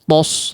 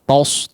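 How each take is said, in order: First: The syllable sounds heavy and thick, like tos. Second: The same.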